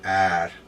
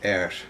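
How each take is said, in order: First: The vowel is an open 'ar' sound. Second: The vowel is a mid 'er' sound. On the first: The speaker calls it wrong. "It's not really ar" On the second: The speaker calls it right. "it's er. It's more like the same as we pronounce er"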